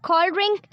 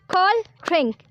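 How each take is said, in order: First: Said in the usual way. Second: Cold drink in two separate beats; syllable by syllable. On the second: Shown as a demonstration. Teacher counting syllables for learners, cold drink in separate beats. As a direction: punch out cold, pause, then drink. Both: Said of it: "इस word में दो syllable हैं".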